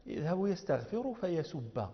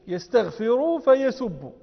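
First: Slow, softer "يذهب يستغفر فيسب" with final -a on فيسب; accusative ending. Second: Slow, raised "يستغفر فيسب" with final -u on فيسب; nominative ending. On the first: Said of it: "من ناصب؟". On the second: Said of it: "على الرفع فهو ظاهر يكون معطوفا". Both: Shown as a demonstration.

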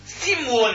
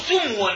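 First: سمو said slowly as "simwun"; short i in the first syllable of سمو: sim-wun; kasra on the س. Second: سمو said as "sumwun"; short u in the first syllable of سمو: sum-wun; damma on the س. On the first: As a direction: give سمو an i after the س, m closed before "wun". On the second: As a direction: give سمو a u after the س, m closed before "wun". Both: Shown as a demonstration. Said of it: "بكسر السين أو ضمها".

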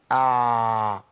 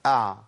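First: أع with the ayn drawn out very long; overlong ayn. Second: أع with the ayn run on just a little; brief flowing ayn. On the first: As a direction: drag the ayn of أع on and on, slowly. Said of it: "ما مشيهوش أكتر من كده". (أع بصوت ممطوط أكتر من اللازم) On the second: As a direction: let أع flow briefly, then stop. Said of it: "مشي الصوت شوية صغيرين بس". (أع بجريان صوت بسيط) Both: Shown as a demonstration.

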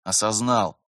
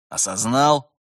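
First: Subdued, resigned confirmation; dejected. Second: Raised, louder checking question; stern demand. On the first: Vitaly confirms to his mentor, dejected. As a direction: give in glumly. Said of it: "уныло подтвердил Виталий". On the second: Terentyev demands the trainee acknowledge, sternly. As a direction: press him sharply for an answer. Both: A narrator's reading.

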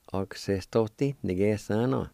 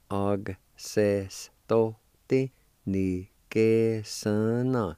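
First: Said in the usual way. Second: Slow, syllable by syllable; slow demo. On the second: Shown as a demonstration. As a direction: og se sto ti, ni que son no, drawn out evenly.

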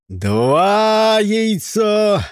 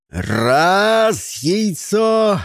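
First: Loud, high count; shouting. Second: High, loud count; shouting. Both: A narrator's reading. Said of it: "крикнул Джон".

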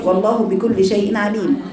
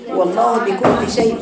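First: Slow recited والله بكل شيء عليم, falling at the end; Quranic recitation. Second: Slow recited والله بكل شيء with a rise on شيء; Quranic recitation. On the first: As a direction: recite the whole verse slowly. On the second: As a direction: chant it slowly like recitation. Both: Shown as a demonstration. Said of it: "كيف نقرأها".

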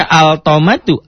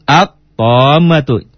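First: "altomatu" with an audible l before the t; higher-pitched wrong-way demo of "altomatu", l sounded; l wrongly sounded. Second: Very slow "altomatu" said at-tommatu, no l; drawn-out correct demo of "altomatu", l becoming t; l left silent. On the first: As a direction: say "altomatu" with al fully pronounced. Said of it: "jangan dibaca altomatu". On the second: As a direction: stop on a doubled t and stretch the o in "altomatu". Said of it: "otomatis lamnya tidak dibaca". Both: Shown as a demonstration.

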